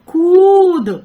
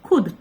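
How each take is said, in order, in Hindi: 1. शब्द 'खुद' में स्वर लंबा है। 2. शब्द 'खुद' में स्वर छोटा है। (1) "वही कर दिया बड़ा ऊ का मात्रा, रॉन्ग" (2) "छोटा ऊ की मात्रा"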